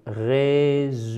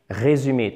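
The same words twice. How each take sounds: First: "Résumer," very slowly, syllable by syllable; drawn-out syllables. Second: Said in the usual way. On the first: Shown as a demonstration. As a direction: stretch each syllable of "Résumer," for learners. Teacher repeats it drawn out. (« Résumer, » très lentement, syllabe par syllabe)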